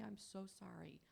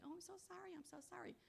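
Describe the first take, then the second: First: Mean the apology, plainly and sincerely. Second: High, soft, gushing fake sorry; mock over-apologizing. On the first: Shown as a demonstration. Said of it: "and really say". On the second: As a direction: imitate a needless, fussy apology in a high voice. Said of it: "that attitude of saying".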